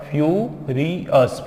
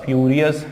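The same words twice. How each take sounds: First: फ्यूरियस slowly as फ्यू, री, अस; syllable by syllable. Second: Said in the usual way. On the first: Shown as a demonstration. Teacher shows how to split the word, syllable by syllable. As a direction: break फ्यूरियस into three beats. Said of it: "ऐसे इसको break करना है". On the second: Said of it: "वैसे ही बन जाएगा".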